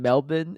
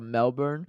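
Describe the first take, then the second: First: It is said with an Australian pronunciation. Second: It is said with a North American pronunciation.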